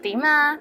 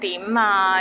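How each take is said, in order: First: It is said in a friendly tone. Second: It is said in an impatient tone.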